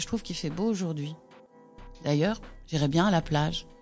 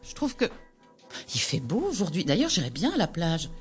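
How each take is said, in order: First: The first pause comes after 'aujourd'hui'. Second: The first pause comes after 'Je trouve que'.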